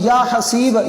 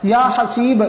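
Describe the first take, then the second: Both takes have the same delivery.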